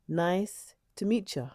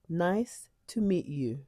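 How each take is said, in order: First: The last word is reduced to a quick 'ya'. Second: The last word is a full, clear 'you'. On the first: It is the more casual way. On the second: It is the standard, less casual way.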